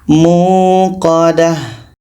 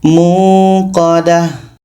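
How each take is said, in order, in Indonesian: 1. Kata itu diakhiri dengan bunyi h. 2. Kata itu diakhiri dengan bunyi h.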